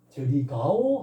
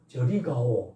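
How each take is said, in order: First: It is intoned as a question. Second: It is intoned as a command. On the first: The speaker asks whether someone is going over there. "하면 의문문이고" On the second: The speaker orders someone to go over there. "그럼 명령문이고"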